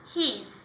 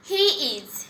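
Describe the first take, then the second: First: The words are merged into one short syllable. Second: Both words are said fully and separately. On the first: "contraction form হচ্ছে হিজ" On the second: "হি ইজ এর contraction form"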